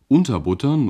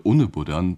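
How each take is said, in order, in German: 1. Es wird mit standarddeutschem Akzent gesprochen. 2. Es wird mit einem weichen hessischen Akzent gesprochen.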